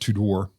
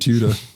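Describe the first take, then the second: First: It is said with an American pronunciation. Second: It is said with a British pronunciation.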